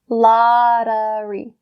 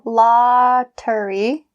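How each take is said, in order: First: The middle consonant is a soft D sound. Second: The middle consonant is a clear T sound. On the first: The speaker calls it right. "we'll say lottery. The d, d sound" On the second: The speaker calls it wrong. "instead of saying lottery, because that T sound"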